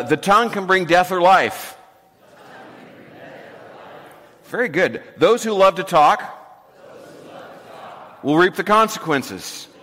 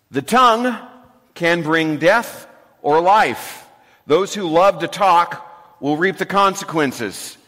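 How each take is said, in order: First: Proverb said in short chunks for the room to echo; recital in segments. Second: Slow, weighty reading of the proverb, first word raised and loud; solemn scripture reading. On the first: Pastor leads the congregation in repeating the verse, in short chunks. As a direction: lead the call-and-repeat line by line. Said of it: "I'll say it in short segments". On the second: Pastor reads the proverb aloud to the congregation, slow and weighty. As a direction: read the verse for the church to repeat. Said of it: "I'm gonna read it". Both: Shown as a demonstration.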